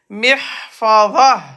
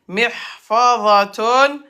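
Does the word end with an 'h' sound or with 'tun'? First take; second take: h; tun. First: The word ends with a soft 'h' sound. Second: The word ends with a full 'tun' syllable. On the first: The speaker stops at the end of the sentence. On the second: The speaker is continuing the sentence.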